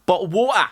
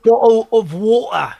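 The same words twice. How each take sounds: First: Higher Cockney "Bottle of water!" with dropped t; London accent. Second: Slow, higher, louder Cockney "Bottle of water!"; London accent. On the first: Shown as a demonstration. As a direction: belt it out like a London market trader. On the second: Retold or imitated. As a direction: echo it back, hamming up the Cockney. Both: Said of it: "spoken with a London accent".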